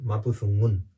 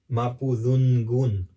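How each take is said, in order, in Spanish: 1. La n y la g se fusionan en un solo sonido. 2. La n y la g se pronuncian como sonidos separados. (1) "tiene que ser Mapuzungun" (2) "caer en el error de decir ... como separar la N con la G"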